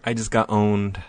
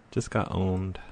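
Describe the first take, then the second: First: Said in the usual way. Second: Softer, muttered to yourself; quiet mutter. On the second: Real, not acted. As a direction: mutter it, deflated.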